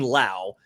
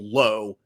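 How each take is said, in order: First: The name rhymes with now. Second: The name rhymes with go. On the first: This is one player's family pronunciation. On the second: This is the other players' family pronunciation.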